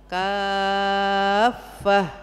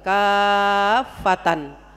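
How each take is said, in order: First: The word ends with an h sound. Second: The word ends with the syllables -tan. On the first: The speaker calls it right. "tak marbuto dibaca jadi hak, ya, di akhir kalimat" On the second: The speaker calls it wrong. "Kalau nggak ngaji dibacanya apa? ... Berhenti tapi dibaca kafatan"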